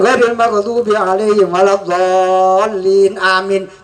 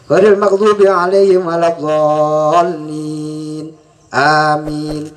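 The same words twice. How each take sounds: First: Amin runs straight on without a pause. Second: There is a pause before amin. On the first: Amin is treated as part of the Fatihah. The speaker calls it wrong. "disambung dengan amin itu dosa" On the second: Amin is kept apart from the Fatihah. The speaker calls it right. "harus ada jedanya"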